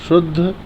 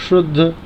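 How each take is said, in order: Both takes have the same delivery.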